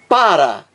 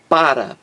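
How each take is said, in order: First: The first syllable is said with clear force. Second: The word is said weakly, without a strong syllable. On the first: It is the verb form. "a sílaba mais forte, o acento tônico, está na primeira sílaba" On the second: It is the preposition. "é diferente desta aqui, ó, para, preposição"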